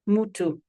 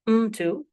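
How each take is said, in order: First: A vowel sound follows the m. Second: The m runs straight into the t. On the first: "there is a vowel following the m sound" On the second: "rather than mtu"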